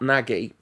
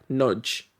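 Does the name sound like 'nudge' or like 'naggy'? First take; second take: naggy; nudge. First: The name is said as two syllables, like 'naggy'. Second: The name is said as one syllable, like 'nudge'. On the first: The speaker calls it wrong. "it's not Nagy" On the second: The speaker calls it right. "it's like Nudge. That's how you're supposed to pronounce it"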